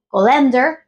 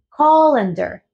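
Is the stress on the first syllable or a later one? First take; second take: later; first. First: The stress falls on a later syllable. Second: The stress falls on the first syllable. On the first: The speaker calls it wrong. "No es colander" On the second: The speaker calls it right. "la entonación está al principio"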